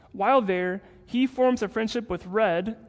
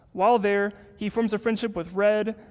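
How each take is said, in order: The two takes are said the same way.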